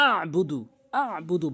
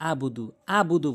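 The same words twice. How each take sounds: First: "আবুদু" with pressed throat ayn after a; correct ayn. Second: "আবুদু" with a simple open a; wrong pronunciation. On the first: Teacher correcting students, "আবুদু" pressed from within. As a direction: squeeze the ayn from inside in "আবুদু". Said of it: "ভিতর থেকে চাপ দিয়ে". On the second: Teacher showing the common slip, "আবুদু" without ayn. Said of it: "অনেকে আবুদু বলে". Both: Shown as a demonstration.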